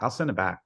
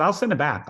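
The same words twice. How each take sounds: First: Said in the usual way. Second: Higher, louder eager take on send; eager promise. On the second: Retold or imitated. Coach eagerly promising to return the DVD, higher and louder. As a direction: promise it keenly, pushing up on send. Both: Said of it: "He said".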